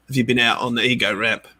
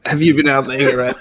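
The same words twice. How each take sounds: First: Put-on a light, barely-there British accent; a first quick stab at a British accent, mostly own voice. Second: Fast, louder hammed-up British accent. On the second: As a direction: lean into a mock British rock star accent. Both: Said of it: "That's my British accent".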